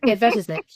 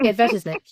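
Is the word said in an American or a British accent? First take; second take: British; British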